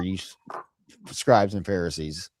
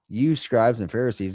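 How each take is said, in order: First: It is said with angry contempt. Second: It is said in a mild, casual tone.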